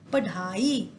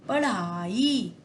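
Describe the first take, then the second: First: The middle consonant is a full stop. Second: The middle consonant is a quick tongue flap. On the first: The speaker calls it wrong. "ये भी कोई शब्द नहीं बना" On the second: The speaker calls it right. "इससे हम बोलते हैं अड़"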